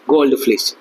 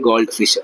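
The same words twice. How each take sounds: First: ഗോൾഡ് ഫിഷ് slurred with a stray l sound before fish; ഗോൾഡ് ഫിഷ് said quickly as goldf-lish; ഗോൾഡ് ഫിഷ് run together, the fish blurred; slipped pronunciation. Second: ഗോൾഡ് ഫിഷ് said cleanly as gold fish; ഗോൾഡ് ഫിഷ് fixed, each word clear; corrected pronunciation. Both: Real, not acted. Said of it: "sorry".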